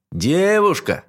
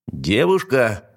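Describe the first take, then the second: First: Higher, more insistent call up; louder call. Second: Calling up to the tower. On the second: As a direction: shout it up to the window. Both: A narrator's reading. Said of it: "принялся кричать".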